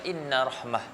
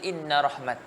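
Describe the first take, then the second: First: The last word ends with an h sound. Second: The last word ends with a t sound. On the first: "yang lebih fasihnya, kalau berhenti dekat rahmah, maka kita akan baca inna rahmah" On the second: "Dia akan berhenti inna rahmat"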